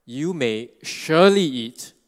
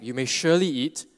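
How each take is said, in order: First: "surely" stretched slow and loud, leaning hard on it; emphatic surely. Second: Said in the usual way. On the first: Shown as a demonstration. Preacher quoting God to the man, "surely" stressed hard. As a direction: land firmly on "surely", slow and weighty. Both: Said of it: "right, emphatic".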